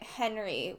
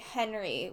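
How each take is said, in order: First: The name is said with an English pronunciation. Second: The name is said with an English pronunciation.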